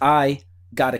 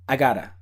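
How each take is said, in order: First: There is a pause after 'I'. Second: The words run together without a pause. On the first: The speaker calls it wrong. "when you have the pause, it doesn't sound as natural" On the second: The speaker calls it right. "It goes together. It's like one word"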